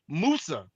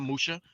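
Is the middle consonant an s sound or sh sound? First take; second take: s; sh. First: The middle consonant is a plain s sound. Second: The middle consonant is an sh sound. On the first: The speaker calls it right. "his name is Musa" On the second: The speaker calls it wrong. "not Musha"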